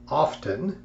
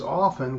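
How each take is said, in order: First: The T sound is clearly pronounced. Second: The T sound is left silent. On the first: The speaker calls it wrong. "emphasizing the T" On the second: The speaker calls it right. "The correct way is often with the T being, being silent"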